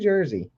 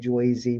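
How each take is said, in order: First: The first vowel sounds like 'er'. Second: The first vowel sounds like 'oy'. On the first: It is how locals actually say it. The speaker calls it right. "We say Jersey" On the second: It is how outsiders imagine locals say it. The speaker calls it wrong. "You know we don't say Joycey"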